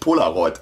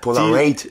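First: The last syllable is said as 'roid'. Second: The last syllable is said as 'raid'. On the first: "es ist auf jeden Fall nicht Polaroid" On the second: "irgendwie so Raid"

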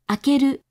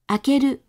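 No difference in how they are said.

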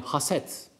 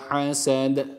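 First: It ends in a plain, crisp t sound. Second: It ends in a d with an echoing bounce. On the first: The speaker calls it wrong. "haset bizim Türkçe'de kullandığımız" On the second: The speaker calls it right. "kalkale sıfatını gerçekleştirirken dal harfine de dikkat ediyoruz"

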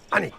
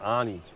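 First: The name is said short and crisp. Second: The name is drawn out slowly and long. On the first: The speaker calls it right. "Kurz und knapp, brisant" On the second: The speaker calls it wrong. "Du ziehst das immer so lang"

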